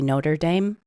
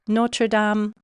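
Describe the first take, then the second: First: It is pronounced the anglicized English way. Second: It is pronounced the French way. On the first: The speaker calls it wrong. "Please don't say Notre Dame" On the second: The speaker calls it right. "When you're visiting Paris, Notre Dame, do your best"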